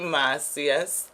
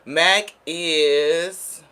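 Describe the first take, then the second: First: The name is pronounced in a Spanish style. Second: The name is pronounced as English "Mac is." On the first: The speaker calls it wrong. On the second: The speaker calls it right.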